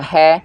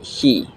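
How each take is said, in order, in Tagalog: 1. Ang patinig ay maikling tunog ng e. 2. Ang patinig ay mahabang tunog ng e. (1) "Hindi siya he" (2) "kundi he"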